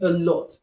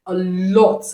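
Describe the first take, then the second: First: Said in the usual way. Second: LOT drawn out slowly for emphasis; slow, weighty "a lot"; emphatic repeat. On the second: Real, not acted. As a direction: stretch "lot" to stress how much.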